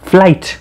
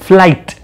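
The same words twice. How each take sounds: The two takes are said the same way.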